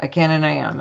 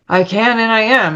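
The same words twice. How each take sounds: First: Rote, half-hearted recital; going through the motions, understated; not meaning it. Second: Higher, more deliberate affirmation; retold declaration with conviction; meaning it. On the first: Retold or imitated. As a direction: repeat it dutifully, without conviction. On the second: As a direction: say it like you mean it. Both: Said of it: "say it like you mean it".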